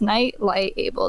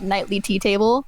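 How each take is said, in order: First: It is split as night, light, able. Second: It is split as nightly, tea, table. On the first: The speaker calls it right. "it's it's Night Light Able. There you go" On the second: The speaker calls it wrong. "It is not Nightly Tea Table"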